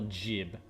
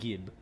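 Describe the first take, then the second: First: The word begins with a soft J sound. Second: The word begins with a hard G sound.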